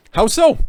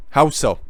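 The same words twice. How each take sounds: First: High, loud incredulous challenge; incredulous question. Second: Said in the usual way. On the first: Real, not acted. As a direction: ask it high in disbelief. Mocking challenge to the group.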